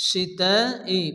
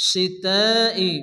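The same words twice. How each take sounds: No difference in how they are said.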